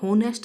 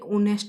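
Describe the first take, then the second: First: The word begins with an h sound. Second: The word begins with a vowel sound. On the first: The speaker calls it wrong. "ये होनेस्ट नहीं बोला जाता है" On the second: The speaker calls it right. "ऑनेस्ट बोला जाता है"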